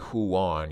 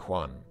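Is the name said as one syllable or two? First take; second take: two; one. First: The name is split into two syllables. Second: The name is said as one syllable. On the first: The speaker calls it wrong. "You don't say Huan" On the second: The speaker calls it right. "you say Huan"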